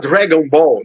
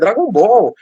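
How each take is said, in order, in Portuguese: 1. O nome é dito com sotaque inglês. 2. O nome é dito com sotaque português.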